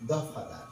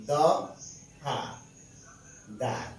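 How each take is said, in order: First: Said in the usual way. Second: দ, হা, দার with a pause after each; syllable by syllable. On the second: Shown as a demonstration. Teacher showing students it isn't said all at once, separated syllables দ, হা, দার. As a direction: break it into দ, হা, দার. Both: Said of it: "একসাথে দফা কিন্তু বলেন নাই".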